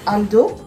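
The name is said with a French accent.

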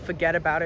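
It is said in a New York accent. "people will be like"

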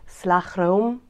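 It is said with a native Dutch pronunciation. "but properly pronounced"

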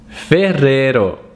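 The name is said with an Italian pronunciation. The speaker calls it right. "it's Ferrero"

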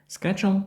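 The word is said with an American pronunciation. "це більш американська вимова"

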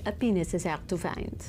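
It is spoken in a French accent. "you have to do French so I could make this joke"

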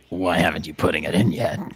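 It is said in a hissing snake voice.

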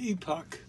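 The word is pronounced the British way.

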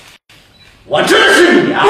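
It is said in a changed, strongly marked tone. The meaning of the line changes completely. The speaker calls it wrong. "你跟他媳妇儿换一个语气说"

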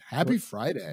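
It is said in a neutral accent. The speaker calls it wrong. "Where's the Southern accent?"

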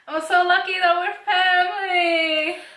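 It is said with sincere feeling.

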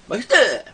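It is said in an exaggerated imitating voice. The speaker is imitating how another woman says it. "그녀"

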